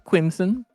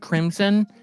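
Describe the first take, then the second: First: The name begins with a K and W sound. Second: The name begins with a K and R sound. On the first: The speaker calls it right. "Quimson with a W" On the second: The speaker calls it wrong. "it's not pronounced Crimson"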